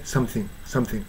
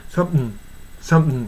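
First: "something" with th fully sounded; "something" ending in a clear -thing; standard form. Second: "something" as sump'm; only "some" audible in "something"; swallowed thing. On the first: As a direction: say both syllables of "something" clearly. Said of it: "標準的な発音". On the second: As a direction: drop the th, ending "something" on a nasal hum. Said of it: "someしか聞こえない". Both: Shown as a demonstration.

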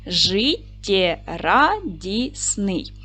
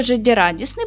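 First: Very slow, syllable by syllable; split into syllables. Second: Said in the usual way. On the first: Shown as a demonstration. Teacher dividing the word for pupils, slow syllables. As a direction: pull Життєрадісний apart into its syllables slowly. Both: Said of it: "поділимо на склади".

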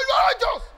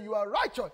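First: Yelled at the top of the range; out-shout them, very high and loud; acted insistent shout. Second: Said in the usual way. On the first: Retold quarrel at its peak.

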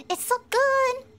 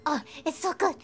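First: Higher, louder, gushing; excited. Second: Said in the usual way. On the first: Shown as a demonstration. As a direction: say it again with more delight.

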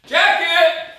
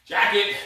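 First: High squeaky joke voice; silly high voice. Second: Said in the usual way. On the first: Pretend. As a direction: squeak it out, mocking his own slip. Jokingly repeats his slip "jacket.

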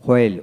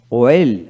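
First: হোয়েল begun with an audible h; sounded H. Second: ওয়েল begun with a rounded w glide. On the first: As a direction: say হোয়েল as "hwel". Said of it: "ব্রিটিশে হ উচ্চারিত হয়". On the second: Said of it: "আমেরিকানে অ উচ্চারিত". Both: Shown as a demonstration.

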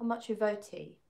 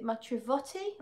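First: "matrivoti" with a long "vote" in it. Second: "matrivotti" with a short "vot" as in "not". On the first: Offering a chat viewer the other reading, long O in "matrivoti". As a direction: say "matrivoti", middle O as in "boat". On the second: Trying out a chat viewer's foreign word, short O in "matrivotti". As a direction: say "matrivotti", middle O short and open. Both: Shown as a demonstration. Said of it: "Is it matrivotti or matrivoti?".

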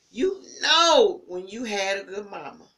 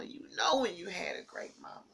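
First: Emphatic. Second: Said in the usual way. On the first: Real, not acted. Repeats line, softer then louder.

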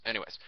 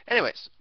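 First: Said in the usual way. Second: Anyways thrown up high and loud. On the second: Shown as a demonstration. Moving on from the joke with a high, loud Anyways.

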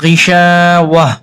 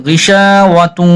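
First: গিসা ওয়া read after a pause, with a plain ওয়া and no doubling; pause, then a light ওয়া; stopping reading. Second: গিসা ওয়া তু run together, with তু doubled; joined reading. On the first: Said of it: "এখানে যদি দম ফেলি তাহলে". (দম ফেলে গিসা ওয়া, তাসদিদ ছাড়া) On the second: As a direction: join straight through with the shadda. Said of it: "দম না ফেলি তো". (দম না ফেলে গিসা ওয়া তু, তাসদিদসহ) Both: Shown as a demonstration.

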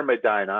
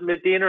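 First: "Medina" pronounced meh-DYE-nuh; Medina with EYE. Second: "Medina" pronounced meh-DEE-nuh. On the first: Host checking a speaker's surname, "Medina" said meh-DYE-nuh. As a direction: say "Medina" with a long i, rhyming with China. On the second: Host checking a speaker's surname, "Medina" said meh-DEE-nuh. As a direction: say "Medina" with a long ee in the middle. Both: Shown as a demonstration. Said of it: "Is it Medina or Medina?".

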